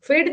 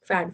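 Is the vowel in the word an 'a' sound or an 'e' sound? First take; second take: e sound; a sound. First: The vowel is an 'e' sound, like 'fed'. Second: The vowel is an open 'a' sound, like 'cat'. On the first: The speaker calls it wrong. "फेड नहीं" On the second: The speaker calls it right.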